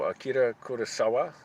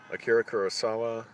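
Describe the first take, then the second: First: The R sounds are said Spanish-style, tapped. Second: The R sounds are said American-style. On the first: The speaker calls it wrong. "I'm used to anything with R, sort of the Spanish pronunciation" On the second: The speaker calls it right. "I should say it the American way"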